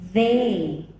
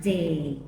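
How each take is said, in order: First: The first sound is a voiced th. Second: The first sound is not a voiced th. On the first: The speaker calls it right. "hard T H is voiced" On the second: The speaker calls it wrong. "not they"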